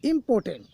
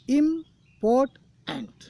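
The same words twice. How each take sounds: First: Said in the usual way. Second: इम्पोर्टेंट drawn out slowly, syllable by syllable; slow syllable demo. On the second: Shown as a demonstration. Teacher to students, counting syllables: इम्पोर्टेंट slowly stretched. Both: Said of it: "यहाँ तीन syllable हो गए guys".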